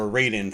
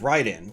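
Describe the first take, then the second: First: It is said the North American way. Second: It is said the non-North American way.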